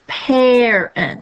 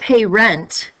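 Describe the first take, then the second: First: The first vowel is short. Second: The first vowel is long, like 'pay'. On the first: The speaker calls it right. "short vowel sound" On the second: The speaker calls it wrong. "It's not pay rent"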